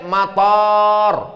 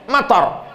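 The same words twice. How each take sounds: First: The first vowel is long. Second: The first vowel is short. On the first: It means airport. "Tapi kalau pakai alif" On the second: It means rain. "Matar pendek, hujan"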